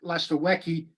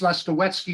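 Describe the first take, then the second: First: The middle consonant is said without a 'ts' sound. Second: The middle consonant is said as a 'ts' sound. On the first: The speaker calls it wrong. "It's not Lastowecki" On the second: The speaker calls it right. "so it's Lastowetsky is the real pronunciation"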